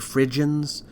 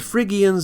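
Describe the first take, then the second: First: It uses the common English pronunciation. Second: It uses a pronunciation closer to Greek. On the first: "people often say Phrygians" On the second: "Phrygians is closer to the Greek pronunciation"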